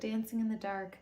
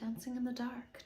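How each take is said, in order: First: It is said in the speaker's normal accent. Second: It is said with a put-on accent.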